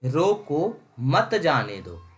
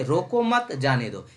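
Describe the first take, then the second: First: रोको set apart, then मत जाने दो slowly; pause after रोको. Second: रोको मत joined, then जाने दो; pause after मत. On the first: Teacher reads the first line to students, pausing after रोको. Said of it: "पहला लाइन क्या बता रहा है". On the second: Teacher reads the second line to students, pausing after मत. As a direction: run रोको into मत, break before जाने दो. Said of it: "और दूसरा में". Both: Shown as a demonstration.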